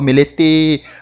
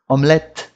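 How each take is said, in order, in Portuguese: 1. Um som de vogal é acrescentado depois do T final. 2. A palavra termina de forma seca no T final. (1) "o pessoal acha que tem que pôr E no final das coisas" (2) "A gente vai parar a pronúncia na letra anterior"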